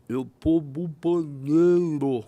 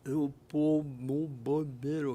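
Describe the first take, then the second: First: Slow, slurred words, louder, as after a stroke; imitating a stroke victim's slurred speech. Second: Slurred voice. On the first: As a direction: drag the words out thick and slurred. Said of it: "Falou com a voz enrolada". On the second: Retold or imitated. Repeats the stroke victim's answer.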